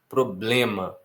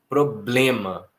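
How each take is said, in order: The two takes are said the same way.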